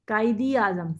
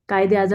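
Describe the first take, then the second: First: The vowel after 'qaid' is an 'ee' sound. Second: The vowel after 'qaid' is an 'e' sound. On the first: "अब आपकी jaw line नीचे जाएगी। ई की sound पे" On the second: "आप तो ए की साउंड पे बोलते हैं"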